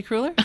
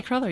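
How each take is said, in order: First: "cruller" with a long oo, as crooler; other person's pronunciation. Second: "cruller" with a short first vowel; own pronunciation. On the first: Retold or imitated. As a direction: say "cruller" as CROO-ler, questioning. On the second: Shown as a demonstration. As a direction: say "cruller" to rhyme roughly with duller. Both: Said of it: "You say cruller".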